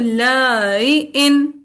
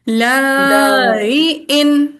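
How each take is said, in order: First: The first vowel is kept short. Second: The first vowel is drawn out long.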